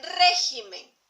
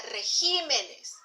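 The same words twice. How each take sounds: First: "régimen" with a loud, slow RÉ; stress on first syllable. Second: "regímenes" stressed on the I of GÍ; stress shifted to GÍ. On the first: Teacher showing the accented E in "régimen", stressed first syllable. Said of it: "también lleva tilde en la E". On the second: Teacher showing the plural "regímenes", stress shifted onto GÍ. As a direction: say "regímenes" with the accent moved to the second syllable. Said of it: "la tilde recaería en la". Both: Shown as a demonstration.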